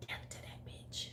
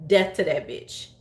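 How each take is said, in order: First: Whisper. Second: Said in the usual way. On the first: Retold or imitated. Repeats the line as a whisper.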